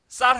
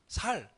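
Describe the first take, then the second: First: The word begins with a tense s sound. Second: The word begins with a plain s sound. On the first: This is the standard pronunciation being requested. "쌀 해보라고" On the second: The speaker is from Daegu. "대구 사람들이 쌀을 뭐라고 발음하죠? 살"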